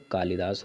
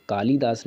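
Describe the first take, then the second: First: कालिदास with short li; correct short i. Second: कालिदास with long lee, kaaleedaas; wrong long ee. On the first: Teacher giving the poet's right spelling, कालिदास with short i. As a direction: keep the middle vowel of कालिदास quick. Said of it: "कालिदास होता है". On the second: Teacher citing the misspelling, कालिदास with long ee. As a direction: stretch the middle vowel of कालिदास. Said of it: "कालिदास नहीं होता". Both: Shown as a demonstration.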